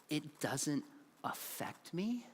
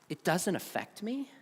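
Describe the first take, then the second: First: Soft, very slow, rising "me"; mock echo. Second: Said in the usual way. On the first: Shown as a demonstration. Speaker echoes the myth after the student's confession, soft ironic murmur. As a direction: murmur it back as a hollow doubting echo.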